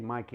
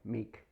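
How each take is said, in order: First: The first vowel sounds like 'eye'. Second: The first vowel sounds like 'ee'. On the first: The speaker calls it wrong. "I shouldn't say Mikey" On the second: The speaker calls it right. "M E I K, like believe"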